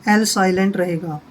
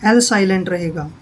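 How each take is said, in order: No difference in how they are said.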